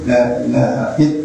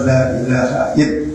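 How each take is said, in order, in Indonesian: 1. Frasanya terputus setelah "ill". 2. Frasanya terputus setelah "ill".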